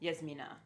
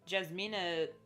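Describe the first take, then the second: First: The name begins with a Y sound. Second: The name begins with a J sound.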